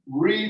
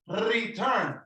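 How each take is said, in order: First: The starting R is smooth, without a trill. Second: The starting R is rolled with a trill. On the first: The speaker calls it right. "listen to the beginning sound" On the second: The speaker calls it wrong. "you don't say return. You don't say that"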